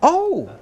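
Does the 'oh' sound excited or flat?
excited. It is said loudly and with excitement. "You have to smile and sound excited and raise your voice"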